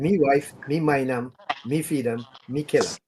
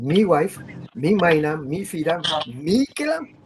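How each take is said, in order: First: It is said as a statement, falling. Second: It is said as a question, rising.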